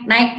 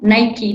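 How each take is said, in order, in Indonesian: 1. Diucapkan dengan satu suku kata. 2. Diucapkan dengan dua suku kata. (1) "banyak juga yang bilang naik naik gitu" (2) "Padahal itu kan Nike cara bacanya"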